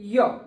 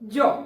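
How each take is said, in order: First: The word begins with a 'y' sound. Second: The word begins with a 'j' sound. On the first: "യോ എന്നും പറയാം" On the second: "ജോ എന്നും പറയാം"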